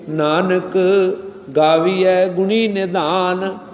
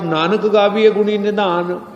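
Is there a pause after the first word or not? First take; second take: pause; no pause. First: There is a short pause after Nanak. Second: It is said without a pause after Nanak.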